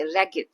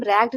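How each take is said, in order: First: रैगेड said in two syllables, ra-ged; रैगेड with the ending sounded out as "ed"; रैगेड spoken the right way for pupils; correct pronunciation. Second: रैग्ड said as one syllable, rag-d; रैग्ड squeezed into a single clipped syllable; the wrong way to say रैग्ड; wrong pronunciation. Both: Shown as a demonstration. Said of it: "इसे हम रैग्ड नहीं पढ़ते".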